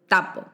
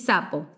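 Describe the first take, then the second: First: The word begins with a stopped t sound. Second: The word begins with a hissing s sound. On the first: "proceso de oclusivización" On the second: "Decís sapo"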